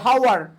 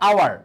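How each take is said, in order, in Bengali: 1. শব্দটি একটি স্পষ্ট হ-ধ্বনি দিয়ে শুরু হয়। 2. শব্দটি সরাসরি একটি স্বরধ্বনি দিয়ে শুরু হয়। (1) "আমরা কি হাওয়ার বলি? না" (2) "এখানে আমরা এইচ এর উচ্চারণ হ ইউজ করি না"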